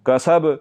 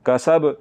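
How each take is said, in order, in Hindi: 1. आख़िरी 'b' एक उछलते झटके के साथ ख़त्म होता है। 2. आख़िरी 'b' एक उछलते झटके के साथ ख़त्म होता है।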